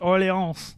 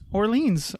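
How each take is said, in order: First: It is said with a French accent. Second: It is said with an English accent.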